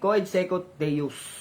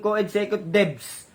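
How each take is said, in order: First: The last word has a U sound. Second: The last word has a V sound. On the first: The speaker calls it right. "ang basa dyan ay co-ed sekut deus" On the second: The speaker calls it wrong. "Wag mong gawin co-ed sekut debs. Baka palitan mo ng victory yung U"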